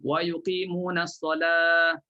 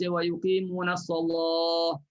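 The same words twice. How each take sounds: First: The L sound is light and thin. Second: The L sound is heavy and thick. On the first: "baca dengan nipis huruf lam" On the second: "Ada qiraat lain yang baca"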